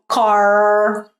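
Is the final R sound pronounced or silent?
pronounced. The final R is clearly pronounced. "no inglês americano, ele é pronunciado como car"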